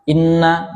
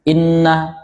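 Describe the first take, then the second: No difference in how they are said.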